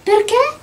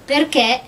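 First: Perché? pitched high and rising; questioning PERCHÉ. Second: Said in the usual way. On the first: A narrator's reading. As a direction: ask "Perché?" high, lifting at the end. Dorothy asks the fleeing princess. (Perché? acuto, con tono interrogativo)

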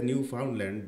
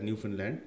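First: "Newfoundland" said as spelt, with a full "found"; spelling pronunciation of "Newfoundland", middle syllable "found"; as written. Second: "Newfoundland" with the middle reduced to "fin"; "Newfoundland" as locals say it, no "found" sound; local pronunciation. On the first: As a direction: say "Newfoundland" with FOUND rhyming with "round". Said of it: "they write it as". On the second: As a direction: say "Newfoundland" like "NEW-fin-land". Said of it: "they pronounce it as". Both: Shown as a demonstration.

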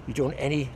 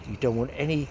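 Both takes have the same delivery.

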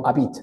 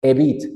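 First: "a bit" opened with a full Spanish A; "a bit" with the A read as spelt; wrong pronunciation. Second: "A bit" opened with a weak vowel, not a Spanish A, said firmly; louder, corrective "A bit" with the A reduced; correct pronunciation. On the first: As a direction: mimic the mistake, ah-BIT. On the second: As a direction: model "A bit" as eh-BIT. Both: Shown as a demonstration. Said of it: "no a bit".

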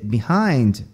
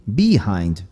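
First: Said in the usual way. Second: "behind" as BEE-hind, first syllable stretched; stress on first syllable. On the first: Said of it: "eles vão mudando essa sílaba tônica". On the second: Shown as a demonstration. Teacher shows the Southern shift, "behind" stressed on BE. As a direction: punch the "be" of "behind". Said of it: "mudando essa sílaba tônica".

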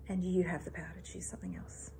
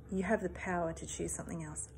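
First: Whispered repetition, letting it sink in. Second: Said in the usual way. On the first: Real, not acted. Coach leaving listeners with her message, whispered. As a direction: breathe the line out as a soft whisper, no voice.

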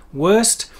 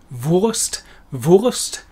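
First: Wurst with an American R-colored vowel, like werst. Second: Wurst with a German V and a rounded oo vowel, vurst. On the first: Teacher showing how Americans say Wurst. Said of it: "our very strange, unpronounced". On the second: Teacher modelling the correct German Wurst. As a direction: say Wurst the proper German way, slowly. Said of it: "correct pronunciation for the word sausage is". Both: Shown as a demonstration.

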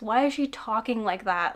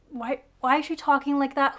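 First: Said in the usual way. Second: Exasperated repeat. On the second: Real, not acted. Reviewer mocks the heroine's stiff way of talking, exasperated. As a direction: throw up your hands at how she talks.

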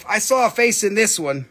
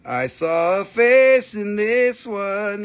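First: Said in the usual way. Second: Patient slow restatement; slow, spelled-out repeat. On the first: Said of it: "repeats it slowly". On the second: Shown as a demonstration. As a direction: drag out "I saw a face in this one" slowly. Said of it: "slow repeat".

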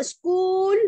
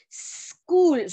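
First: Said in the usual way. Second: "School" with a long hissed sss, then "kool"; isolated S sound. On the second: Shown as a demonstration. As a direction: split "School" into sss... cool. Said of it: "¿Suena como una vocal".

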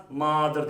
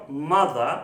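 First: "mother" with a wrongly long "ah"; wrong long vowel. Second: "Mother" with a short "uh" in the first syllable; "Mother" said as "muh-thuh"; correct short vowel. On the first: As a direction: mispronounce "mother" as "maa-ther". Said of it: "diye bir şey yok". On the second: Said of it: "Farklı okunuyor". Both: Shown as a demonstration.

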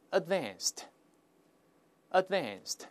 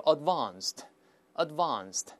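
First: "advanced" with the short American a of "cat", slowly; American pronunciation. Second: "advanced" with the long British ah in the second syllable; British pronunciation. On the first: Teacher models it for students to read aloud, American pronunciation. 确实美音更好读一些. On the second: Teacher shows how British people read it, British pronunciation. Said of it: "同样英国人会读成". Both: Shown as a demonstration.

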